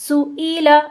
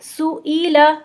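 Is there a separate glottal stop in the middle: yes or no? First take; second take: yes; yes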